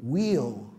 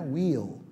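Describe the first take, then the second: The two takes are said the same way.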